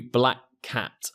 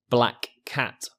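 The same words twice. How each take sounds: First: "black cat" with a single k; smooth "black cat", the first k dropped; linked k sound. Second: "black cat" with the k said twice; slow careful "black cat", every k sounded; both k sounds. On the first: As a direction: run "black" into "cat" on one k. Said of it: "Here I've shown you from the end of black". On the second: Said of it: "difficult to fully pronounce all the sounds". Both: Shown as a demonstration.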